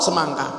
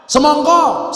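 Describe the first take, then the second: First: "semangka" with open a, back down in pitch; Ngapak pronunciation. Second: "Semongko" high and loud, round o; Javanese pronunciation. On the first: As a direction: answer "semangka" with open a vowels. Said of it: "Oh, sama A". ("semangka" logat Ngapak bervokal a) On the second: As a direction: call out "Semongko" with o vowels. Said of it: "Jawa dengan ngapak". ("Semongko" logat Jawa, lantang dan tinggi) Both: Shown as a demonstration.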